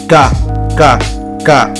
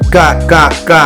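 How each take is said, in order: First: The K sounds are repeated at a normal pace. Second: The K sounds are repeated at a fast pace. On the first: "à un rythme normal" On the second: "Ensuite, on accélère"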